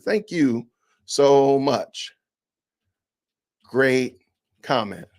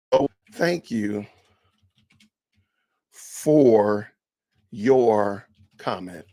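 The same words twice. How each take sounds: First: Slow, mock-sweet thank you; sarcastic thanks, drawn out slowly; mock polite reply. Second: Low, slow sarcastic thanks; drawn-out fake gratitude; mock polite reply. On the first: Vlogger demoing a dismissive reply, slow and mock-sweet. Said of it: "I'm gonna do it like this". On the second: Vlogger demoing a reply backwards, low and slow. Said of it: "Now I'm gonna do it backwards". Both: Shown as a demonstration.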